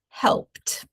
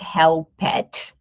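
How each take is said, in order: First: The ending is a plain t with no vowel. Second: The ending is an extra syllable with a vowel. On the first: The speaker calls it right. "It is helped" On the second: The speaker calls it wrong. "It's not helped. Notice that we don't pronounce the E sound here"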